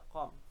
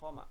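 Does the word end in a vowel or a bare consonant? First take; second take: bare consonant; vowel. First: The word ends on a bare consonant. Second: The word ends with a final vowel. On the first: The speaker calls it right. "harus dibaca qom" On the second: The speaker calls it wrong. "tidak bisa kita baca qoma"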